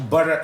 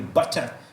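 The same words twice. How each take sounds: First: It is said with an American accent. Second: It is said with a British accent. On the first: "o butter é mais americano" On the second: "o butter é, é mais britânico"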